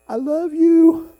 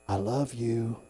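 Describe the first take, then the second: First: High, loud, long-drawn call; God calling out love. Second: Low, soft assurance; tender, as God. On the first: God speaking through a sunset to a driver, loud drawn-out call. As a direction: sing it out slowly across the sky. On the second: God speaking to a man in a bad mood, tender and low. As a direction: say it gently and quietly. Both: Acted. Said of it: "You know how he says it to me?".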